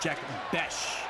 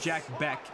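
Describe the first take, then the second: First: The surname ends with a sh sound. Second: The surname ends with a k sound. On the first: The speaker calls it right. "I think it's Jack Besh" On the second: The speaker calls it wrong. "One of them says Jack Beck"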